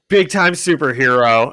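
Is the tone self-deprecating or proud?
proud. It sounds proud and pleased.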